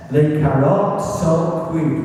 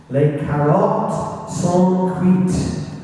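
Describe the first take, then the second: First: Put-on repeated in English-accented French, a little quicker; terrible French accent. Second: Slow, deliberate French with a bad English accent; terrible French accent. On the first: History talk, repeating the coded message to the Resistance, bad French accent. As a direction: say the code again firmly in schoolboy French. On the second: Local history talk, reading the coded D-Day radio message, slow English-accented French. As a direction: read out the coded message in halting schoolboy French. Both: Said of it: "despite my terrible French accent".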